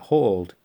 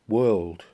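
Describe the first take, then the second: First: The word sounds like 'hauled', with an 'aw' vowel. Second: The word sounds like 'world', with an 'er' vowel. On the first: "That doesn't sound right at all" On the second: "W-H-O-R-L-E-D. World"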